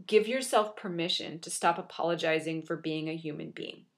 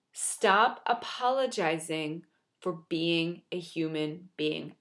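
First: Said in the usual way. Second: Slow deliberate repeat for emphasis; slow emphatic repeat. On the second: Shown as a demonstration. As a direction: Stop apologizing for being a human being, drawn out slowly and softly. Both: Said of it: "say that over and over and over again like a broken record".

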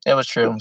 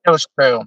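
First: Said in the usual way. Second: Was pressed hard and falling; stress on was. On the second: Shown as a demonstration. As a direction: lean on the word was.

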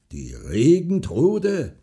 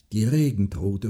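First: Drawn-out, raised, harsh disbelief; hard, scornful repeat. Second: Said in the usual way. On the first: A narrator's reading. Farmer repeats the woman's word, harshly. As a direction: stretch it out hard and louder. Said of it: "wiederholte der Bauer hart".

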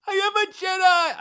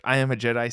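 First: Very high, shouted Tracy Morgan yelp; Tracy Morgan impression. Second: Said in the usual way. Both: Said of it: "said like Tracy Morgan on Thirty Rock".

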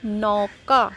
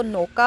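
First: नौका with a broad, drawn-out au; open AU vowel. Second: नौका said as "noka", with a pure o; plain O vowel. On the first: Teacher shows the two-matra word, नौका with open au. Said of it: "अब क्या है". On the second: Teacher shows the one-matra reading, नौका with plain o. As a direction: round the vowel of नौका to a single o. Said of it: "एक मात्रा होती ओ की". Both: Shown as a demonstration.

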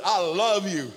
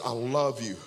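First: Said in the usual way. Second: Tender. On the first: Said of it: "same words later at the altar". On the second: Retold or imitated. Pastor holds the crying young man's face, tender and soft. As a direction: say it gently, close up. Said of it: "tender words at the altar".

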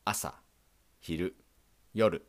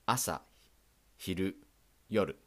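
Both takes have the same delivery.

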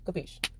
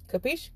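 First: Quiet answer. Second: "Capiche?" asked with a high rising tune; questioning capiche. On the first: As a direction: close the deal with a hushed "Capiche.". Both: Acted. Asked, then answered.

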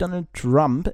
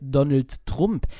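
First: "Donald Trump" with English "ah" in Trump; English pronunciation. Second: "Trump" with a German oo vowel, drawn out; German pronunciation. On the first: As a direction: say "Trump" the English way, like "Tramp" in German. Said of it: "es heißt nicht Donald Trump". („Trump“ englisch, mit a-Laut) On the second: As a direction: say "Trump" as a German surname, "Trumm-p". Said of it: "es heißt Donald Trump". („Trump“ deutsch, mit u-Laut) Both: Shown as a demonstration.

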